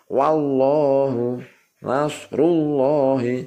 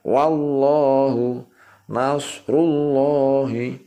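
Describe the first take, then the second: The two takes are said the same way.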